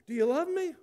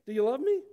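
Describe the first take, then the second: First: Much higher, loud, pressing; voiced Jesus asking yet more insistently; insistent repeated question. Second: Louder, higher, pointed repeat question; voiced Jesus pressing for an answer. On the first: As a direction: press the question harder, pitched right up. Acts out the question asked once more. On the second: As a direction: ask it insistently, raised in pitch and volume. Acts out Jesus asking Peter again.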